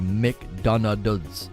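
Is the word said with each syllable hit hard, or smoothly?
hit hard. Each syllable is struck hard and separately. "they hit each letter really hard"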